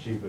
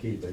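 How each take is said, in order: First: The name begins with an SH sound. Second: The name begins with a K sound. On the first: "Y'all can call it Sheba if you want" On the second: "I pronounce the CH with a K"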